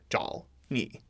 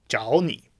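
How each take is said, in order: First: Zhao is said with a low dipping third tone. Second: Zhao is said with a rising second tone. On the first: The speaker calls it wrong. "you can't say zhao ni" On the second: The speaker calls it right. "say zhao ni"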